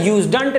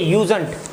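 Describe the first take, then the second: First: A d sound is heard in the middle. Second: No d sound is heard in the middle. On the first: The speaker calls it wrong. "यूजडंट नहीं है" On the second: The speaker calls it right. "इसका उच्चारण बच्चों यूजेंट है"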